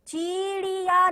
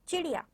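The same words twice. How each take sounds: First: The i vowels are drawn out long. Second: The i vowels are quick and short. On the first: The speaker calls it wrong. "चिड़िया नहीं बोला है मैंने, यानी बड़ी ई की मात्रा नहीं बोली है" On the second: The speaker calls it right. "ई है वो जल्दी भी आ रही है और थोड़ी छोटी ध्वनि"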